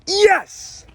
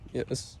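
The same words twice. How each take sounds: First: It is said with enthusiasm. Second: It is said sadly.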